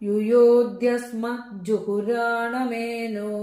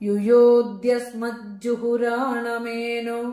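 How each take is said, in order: The two takes are said the same way.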